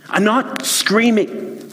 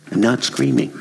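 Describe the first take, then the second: First: Much higher, slow indignant protest; defensive denial. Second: Said in the usual way. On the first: Acted. Husband snaps back at his wife, indignant. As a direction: deny it while clearly still shouting. Wife asks why he's screaming.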